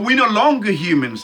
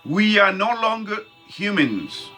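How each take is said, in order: First: The phrase is spoken at a normal pace. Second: The phrase is spoken slowly and deliberately.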